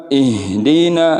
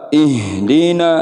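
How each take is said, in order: The two takes are said the same way.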